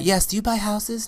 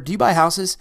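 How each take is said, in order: First: It is said in a put-on womanly voice. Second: It is said in a man's voice.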